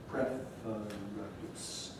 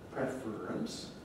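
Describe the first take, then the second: First: A schwa is heard before the r, three syllables. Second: The r itself forms the middle syllable. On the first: "the slowest form is preference with schwa plus r" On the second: "schwa plus r can make syllabic r"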